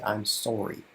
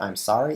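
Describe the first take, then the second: First: Sorry is said the Canadian way. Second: Sorry is said the local, non-Canadian way. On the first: "they say I'm sorry" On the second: "they don't say I'm sorry"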